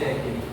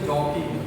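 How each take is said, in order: First: The first vowel sounds like 'ae' in cat. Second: The first vowel sounds like 'aw' in saw. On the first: The speaker calls it wrong. "Not जैकी" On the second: The speaker calls it right. "वैसे इसका pronunciation जॉकी है"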